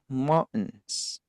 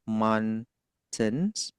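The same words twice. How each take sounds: First: The t is a glottal stop. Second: The t is fully pronounced.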